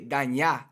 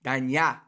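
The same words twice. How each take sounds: Both takes have the same delivery.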